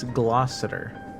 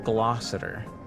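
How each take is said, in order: No difference in how they are said.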